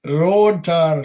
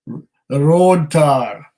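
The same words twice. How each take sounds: First: Quick hammed-up Scottish accent; terrible Scottish accent. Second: Slow, drawn-out mock Scottish accent; terrible Scottish accent. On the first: Host repeating a viewer's tasting note, mock Scottish accent. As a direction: toss off road tar in a bad Scottish accent. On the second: Whisky host savouring the dram, slow hammed-up Scottish accent. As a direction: drag out road tar in a bad Scottish accent. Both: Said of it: "please excuse my really terrible Scottish accent".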